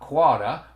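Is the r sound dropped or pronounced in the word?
dropped. The r sounds are dropped, Boston style. "not quota, right, which is nice and easy to say"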